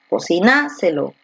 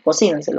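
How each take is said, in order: First: The stress falls on a later syllable. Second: The stress falls on the second syllable. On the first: The speaker calls it wrong. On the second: The speaker calls it right.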